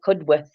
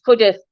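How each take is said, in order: First: "Cudworth" as CUD-worth; pronounced as spelt. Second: "Cudworth" as CUD-uth; local pronunciation. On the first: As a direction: sound the W in Cudworth. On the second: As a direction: drop the W in Cudworth. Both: Shown as a demonstration. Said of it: "but spelt Cudworth".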